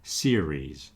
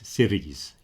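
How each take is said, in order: First: The middle R is a soft English R. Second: The middle R is a flapped Spanish R. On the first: The speaker calls it right. "You got that soft R in the middle" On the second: The speaker calls it wrong. "some people will use a very strong Spanish R"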